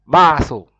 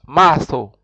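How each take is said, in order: Both takes have the same delivery.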